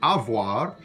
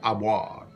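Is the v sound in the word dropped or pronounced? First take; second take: pronounced; dropped. First: The v sound in the middle is pronounced. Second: The v sound in the middle is dropped. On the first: "It's pronounced avoir" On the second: "sometimes that V sound gets dropped and becomes something like avoir"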